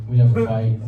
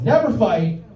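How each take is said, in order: First: Said in the usual way. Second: NEVER FIGHT pitched high; emphatic insistence. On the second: Acted. Comedian insisting he and his girlfriend get along, high emphatic repeat.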